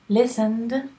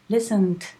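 First: The word ends with a voiced D sound. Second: The word ends with a voiceless T sound. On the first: "d, like Madrid, d" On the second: "then say it with a T"

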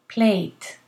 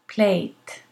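First: The word ends with a voiceless T sound. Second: The same.

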